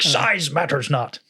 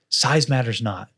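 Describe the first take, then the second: First: It is said with raised pitch and much inflection. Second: It is said with flat pitch and little inflection.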